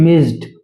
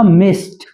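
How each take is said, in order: First: The word ends with a d sound. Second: The word ends with a t sound. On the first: The speaker calls it wrong. "ना कि" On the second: The speaker calls it right. "वो बन जाएगा मिस्ड"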